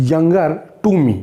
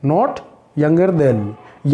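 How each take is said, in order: First: Younger to me, slow, with the word to dwelt on; teacher stressing the correct form "to" for students. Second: Not younger than me, very slow, with than marked as the wrong form; teacher slowly contrasting the wrong form "than"; stress on than. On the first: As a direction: lean on "to" as the correct choice, slowly. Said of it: "younger के साथ में to लगता है". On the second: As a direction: drag out "than" to show it is the mistake. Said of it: "then नहीं लगता है". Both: Shown as a demonstration.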